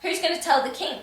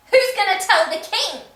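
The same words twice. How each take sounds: First: Said in the usual way. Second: Much higher and louder mock yell; escalated outrage. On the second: Real, not acted. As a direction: blow up the repeat into a shout. Repeated, escalated.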